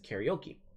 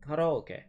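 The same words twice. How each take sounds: First: It is pronounced with English-style vowel sounds. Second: It is pronounced with Japanese-style vowel sounds. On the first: The speaker calls it wrong. "Most of us English speakers might know this as karaoke" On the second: The speaker calls it right. "the original pronunciation is karaoke. That's the true pronunciation"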